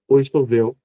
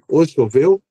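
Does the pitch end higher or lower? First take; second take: lower; higher. First: The pitch goes down at the end. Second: The pitch goes up at the end. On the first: "mais baixo" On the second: "mais alto"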